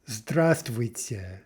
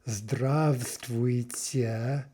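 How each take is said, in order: First: The v sound after zdra is dropped. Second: The v sound after zdra is pronounced. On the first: "what we actually say is здравствуйте, здравствуйте, with no v" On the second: "It's actually zdrav, zdravствуйте"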